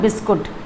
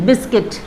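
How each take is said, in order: First: The second syllable sounds like 'koot'. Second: The second syllable sounds like 'kit'. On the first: The speaker calls it wrong. "Not बिस्कुट" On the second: The speaker calls it right. "तो यू को silent रख दीजिए तो it will be बिस्किट"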